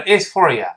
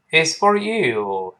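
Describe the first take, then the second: First: "It's for you" with you reduced to "ya"; quick "you" shrunk to a weak "ya"; weakened YOU. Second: Slow "It's for you" with YOU full and drawn out; stress on YOU. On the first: Teacher showing learners what to avoid, you weakened to "ya". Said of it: "这个不能都是呀". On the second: Teacher modelling the answer, YOU fully stressed. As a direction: give "you" its full long vowel. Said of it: "注意，you有重读". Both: Shown as a demonstration.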